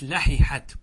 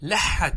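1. يُنطق صوتا الحاء منفصلين. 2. يندغم صوتا الحاء في حاء واحدة مشددة. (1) "العرب لم تدغم وإنما فكت فقالت" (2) "والقياس إيش؟"

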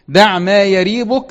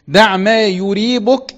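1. الفعل يبدأ بالفتحة 'a' (yariibuk). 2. الفعل يبدأ بالضمة 'u' (yuriibuk). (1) "لو الفعل إيه؟ رابا، يريبه" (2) "لو الفعل أرابا، يريبه"

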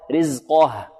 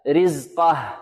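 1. صوت القاف مفخَّم وثقيل. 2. صوت القاف مرقَّق وخفيف. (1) "قافنا حكمها التفخيم" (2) "أن ينطقها مرققة هكذا"

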